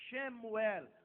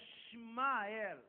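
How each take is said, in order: First: A vowel follows the opening sh sound. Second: No vowel follows the opening sh sound. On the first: The name means name of God. The speaker calls it wrong. "o nome do menino não é Shemuel" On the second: The name means God hears. The speaker calls it right. "mas é Shmael"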